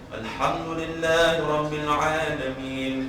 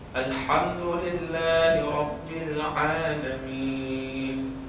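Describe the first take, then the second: First: It is recited quickly. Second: It is recited at a moderate pace. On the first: "dia agak cepat ya" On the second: "Tidak terlalu lambat, tidak juga terlalu cepat"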